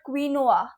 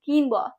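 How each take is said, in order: First: It sounds like 'queen noah'. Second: It does not sound like 'queen noah'. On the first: The speaker calls it wrong. "It is not queen and noah" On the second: The speaker calls it right. "It is quinoa"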